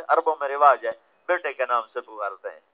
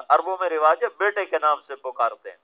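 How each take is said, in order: Both takes have the same delivery.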